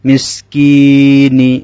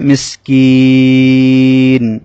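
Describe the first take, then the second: First: The word ends with a short i vowel. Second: The word ends on the n consonant.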